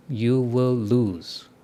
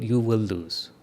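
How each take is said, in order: First: "You will lose." drawn out slowly, every word weighted; slow emphatic warning. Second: Said in the usual way. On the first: Shown as a demonstration. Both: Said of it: "I guarantee it".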